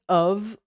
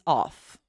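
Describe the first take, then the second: First: OF pronounced uv; voiced V ending. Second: OFF with an open vowel and hissed F; F ending. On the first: Teacher contrasts two words, "of" said with a V. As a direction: end "of" on a buzzing V. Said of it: "this is of". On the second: Teacher contrasts two words, "off" said with an F. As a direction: end "off" on an F, no voice. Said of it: "this is off". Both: Shown as a demonstration.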